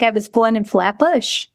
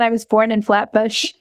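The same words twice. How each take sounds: First: It is said in a strong Brooklyn accent. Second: It is said in a plain, neutral accent.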